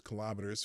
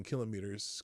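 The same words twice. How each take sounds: First: Kilometers stressed on the second syllable, kih-LOM-eters; different English pronunciation. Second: Kilometers stressed on the first syllable, KIL-o-mee-ters; alternative English pronunciation. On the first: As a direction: say kilometers to rhyme with thermometers. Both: Shown as a demonstration. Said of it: "who speak a different brand of English".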